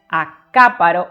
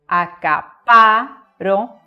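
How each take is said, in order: First: The stress is on the third-to-last syllable. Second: The stress is on the second-to-last syllable.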